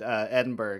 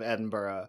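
First: It is pronounced in an Americanized way. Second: It is pronounced in the local way. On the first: The speaker calls it wrong. "I said Edinburgh instead of" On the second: The speaker calls it right. "instead of Edinburgh"

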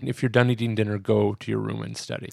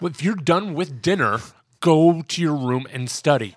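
First: It is said in a fairly calm tone. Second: It is said in an angrier tone.

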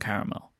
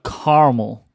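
First: It is said in a non-American accent. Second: It is said in an American accent.

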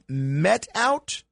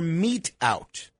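First: The vowel in mete rhymes with bet. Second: The vowel in mete rhymes with beat. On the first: The speaker calls it wrong. "I always said met out" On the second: The speaker calls it right. "It's meet out"

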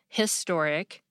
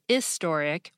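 First: The word begins with an H sound. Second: The word begins without an H sound. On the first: "the majority of Americans pronounce the H" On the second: "British people pronounce historic as historic without the H"

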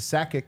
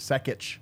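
First: The name is said with an anglicized pronunciation. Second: The name is said with a Croatian pronunciation. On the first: This is the changed, adopted form of the name. "changed to Sakic" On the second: This is the original family form of the name. "instead of Sakic"

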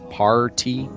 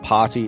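First: The R sound is pronounced hard and clear. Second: The R sound is dropped from the word. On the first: The speaker calls it right. "pronounce your R's very hard" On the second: The speaker calls it wrong. "It's not potty"

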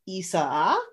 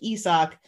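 First: The name is said with three syllables. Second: The name is said with two syllables. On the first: This is how the name is said now. "it's a three syllable intro now" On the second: This is how the name used to be said. "instead of like Isak"

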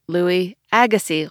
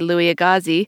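First: The surname sounds like the tennis player's surname. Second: The surname does not sound like the tennis player's. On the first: The speaker calls it right. "it's actually Louis Agassiz, like the tennis player" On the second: The speaker calls it wrong. "I used to say"

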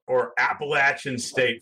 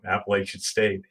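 First: It is said with a Southern pronunciation. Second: It is said with a Northern pronunciation.

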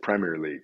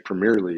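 First: It is said the way English locals say it. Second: It is said the way Americans say it. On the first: This is how the local fans say it. The speaker calls it right. "they pronounce it Premier League" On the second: This marks the speaker as an outsider. The speaker calls it wrong. "that's a no-no"

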